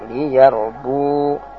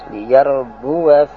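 First: The word stops without a final 'a' vowel. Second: The word keeps its final 'a' vowel and continues. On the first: The reader pauses at this word. "Kalau berhenti" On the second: The reader continues without pausing. "kalau terus"

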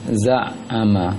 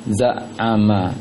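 No difference in how they are said.

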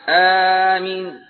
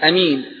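First: A long first vowel tilted toward e. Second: A short first vowel with a single m. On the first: "والثالثة آمين بالإمالة مع المد" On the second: "والثانية بالقصر"

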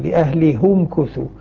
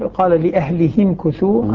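First: The 'h' is followed by a 'u' vowel. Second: The 'h' is followed by an 'i' vowel. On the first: "يضم الهاء على الأصل" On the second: "على مجاورة الكسرة التي قبلها"

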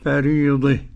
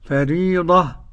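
First: The final vowel leans toward an e sound. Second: The final vowel is an open a sound. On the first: "والإمالة" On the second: "بالفتح"

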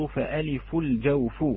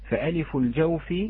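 First: The final word ends with a u vowel. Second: The final word ends with an i vowel. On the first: The alif's point of articulation is the cavity. "على تقدير مخرجها الجوف" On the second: The alif belongs to the cavity, as a possessive phrase. "بالجر على الإضافة"

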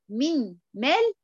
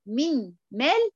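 First: The n is pronounced separately before the m. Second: The n is pronounced separately before the m.

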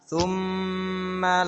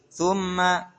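First: The m sound is held long. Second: The m sound is short and not held. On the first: The speaker calls it right. "Tapi ditahan" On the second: The speaker calls it wrong. "biasanya kita baca thumma, jangan"

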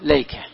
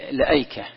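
First: It starts with lay and has no glottal stop. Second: It starts with la and keeps the glottal stop. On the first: "إسقاط الألف وإسقاط الهمزة" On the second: "إسقاط الألف وإثبات الهمز"

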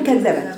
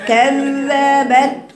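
First: The doubled dh sound is rushed and short. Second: The doubled dh sound is held for two beats. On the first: The speaker calls it wrong. "ما ينفعش اقول كذبت واجري عليها كده" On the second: The speaker calls it right. "هديها زمن ... يبقى هقراها كذبت"

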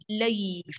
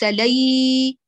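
First: The vowel sound is kept short. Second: The vowel sound is drawn out long. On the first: The speaker calls it right. "لي فقط" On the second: The speaker calls it wrong. "ليس لي، ما نطيلها"

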